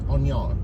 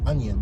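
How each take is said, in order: First: It is said in a Southern American accent. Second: It is said in a general American accent. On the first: This is how people down south say it. "like south, they say onion" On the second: This is not how people down south say it. "They don't say onion"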